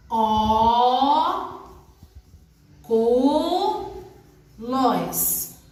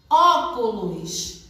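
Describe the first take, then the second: First: Each syllable of "Ó, cu, lós" drawn out separately. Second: Said in the usual way. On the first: Shown as a demonstration. Teacher showing pupils how to separate syllables by speech, syllable by syllable. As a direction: split ÓCULOS into Ó, CU, LÓS with long pauses. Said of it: "separamos as sílabas de acordo com a nossa fala". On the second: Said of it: "Agora vamos separar as sílabas".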